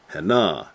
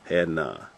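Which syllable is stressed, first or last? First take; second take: last; first. First: The stress is on the last syllable. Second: The stress is on the first syllable. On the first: This is the Hebrew way of saying it. "That's how they would say it" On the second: This is the English way of saying it. "Emphasis on the first"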